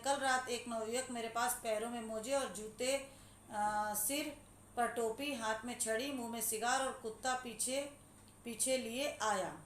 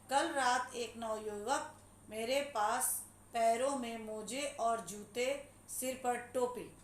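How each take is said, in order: First: Connected phrases with short comma pauses after जूते and टोपी; punctuated reading. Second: Slow, emphatic reading broken into word groups; disjointed unpunctuated reading. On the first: Teacher rereading the sentence another way, punctuated reading. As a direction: read it flowing, each comma marked by a brief pause. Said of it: "अब इसको हम दूसरे ढंग से पढ़ते हैं".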